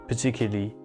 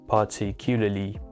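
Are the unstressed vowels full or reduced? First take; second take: reduced; full. First: The unstressed vowels are reduced to schwa. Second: The unstressed vowels are pronounced fully. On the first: The speaker calls it right. "I said particularly ... because of this schwa sound" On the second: The speaker calls it wrong. "instead of saying particularly"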